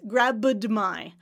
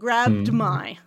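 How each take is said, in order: First: A small extra vowel separates the d and m. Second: The d runs straight into the m. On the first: The speaker calls it wrong. "Try to get rid of the schwa. You did this" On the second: The speaker calls it right. "And we want grabbed my"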